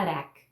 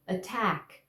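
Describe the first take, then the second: First: "attack" with the T as a tap, like "arack"; tapped T in "attack"; wrongly flapped attack. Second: "Attack" with a firm, unflapped T; crisp T in "Attack"; correct stop T. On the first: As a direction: demo the mistake, softening the T of "attack" to a flick. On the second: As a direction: say "Attack" with a true T opening the stressed syllable. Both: Shown as a demonstration. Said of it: "Não posso falar attack".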